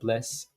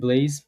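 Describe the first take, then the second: First: The name has a short vowel, like 'bless'. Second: The name has a long vowel, like 'blaze'. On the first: "if somewhere that's French, they're gonna call me uh, Bless" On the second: "if I'm somewhere that's English, it's like yeah, they're gonna call me Blaze"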